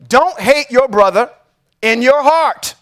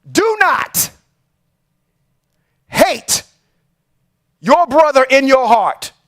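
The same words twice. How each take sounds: First: Said in the usual way. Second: "Do not" pitched high, "hate" stressed, pauses between words; repeating a scripture line to his listeners, slow and spaced with pauses; slow, emphatic repeat. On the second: Shown as a demonstration. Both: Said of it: "I'm gonna say that one more time".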